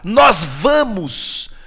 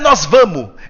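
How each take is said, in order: First: The final S of vamos is clearly pronounced. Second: The final S of vamos is dropped. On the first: The speaker calls it right. "Tem um S no final" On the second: The speaker calls it wrong. "Não é nós vamos"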